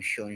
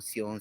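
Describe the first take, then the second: First: The ending is said the English way. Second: The ending is said the French way. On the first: "shon in English" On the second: "words ending with sion"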